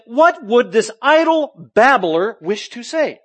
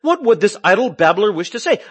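First: Slow, scornful quote of the philosophers; slow disdainful mockery of a babbler; mocking sneer. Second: Loud scoffing quote through a laugh; amused ridicule of the babbler; laughing mockery. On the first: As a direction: drag it out with contempt. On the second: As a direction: laugh at him while asking. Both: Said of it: "some were saying".

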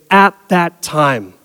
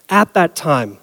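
First: Slow, deliberate reading of the phrase; slow quoted phrase. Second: Said in the usual way. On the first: Shown as a demonstration. Preacher quoting the verse's marker phrase, slow and deliberate. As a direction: lay out each word, slowly. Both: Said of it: "signaled by the phrase".

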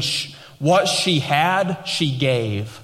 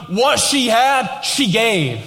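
First: Slow stress on what, falling on gave; emphatic paraphrase. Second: Higher, slow "what", then "she gave"; emphatic repeat. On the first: Preacher giving Jesus' meaning to the church, slow and stressed. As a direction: lean on "what", then drop "she gave". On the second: Preacher hammering the point to the church, slow and high. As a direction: punch "what" hard, land "she gave". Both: Shown as a demonstration. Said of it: "Jesus is literally saying".

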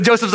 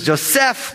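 First: Joseph's with stress on JO, English style; everyday English Joseph's, first syllable stressed; English pronunciation. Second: Joseph said jo-SEF, stress on the end; stress on last syllable. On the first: Preacher giving the common English name, first-syllable stress. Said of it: "a common English name". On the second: Preacher correcting to the Hebrew form of Joseph, final stress. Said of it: "emphasis on the last syllable". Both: Shown as a demonstration.

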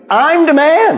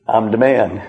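First: Boastful climax. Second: Said in the usual way. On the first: Retold or imitated. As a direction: top the boast with a ringing, rising "man". Peter boasting, repeated three times.

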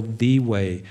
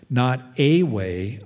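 First: "the" said as thee and weighted, in "the way"; stress on THE. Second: "not a way" slowed, with "a" set against "the"; slow, stressed "a way". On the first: Preacher setting "the way" against "a way", stressed. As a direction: lean hard on "the" before "way". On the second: Preacher contrasting "a way" with "the way", slowly. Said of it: "definite article". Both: Shown as a demonstration.

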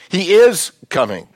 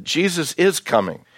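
First: "is" stressed high and loud; emphatic repeat. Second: Said in the usual way. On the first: Real, not acted. Preacher assuring the church of the second coming, stress on "is". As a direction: punch the word "is", higher and louder.

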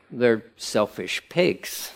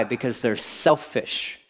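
First: Slow and quiet, dragging out "selfish pigs"; slower, harsher verdict. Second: Slow and quiet, leaning on "they're selfish"; slow blunt verdict. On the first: Preacher elaborating to the congregation, slow deadpan. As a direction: drop the words "selfish pigs" slowly, deadpan. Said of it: "Maybe I can elaborate". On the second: Preacher condemning the selfish sons, slow and quiet. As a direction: let "they're selfish" land slowly and quietly. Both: Real, not acted.

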